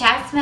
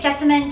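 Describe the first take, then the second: First: The name is pronounced as Jasmine. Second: The name is pronounced as Jessamine.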